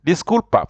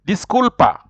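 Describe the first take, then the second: First: Said in the usual way. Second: Higher, clear "Disculpa" with falling end; model Spanish word. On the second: Shown as a demonstration. Teacher presenting "Disculpa" to learners, high and clear. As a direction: lift "Disculpa" high and let it fall. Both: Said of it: "In Spanish is".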